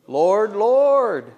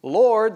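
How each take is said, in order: First: Second Lord higher and louder, insistent; emphatic double Lord. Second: Said in the usual way. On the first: Shown as a demonstration. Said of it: "They're emphatic about it". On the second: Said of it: "they're not just saying".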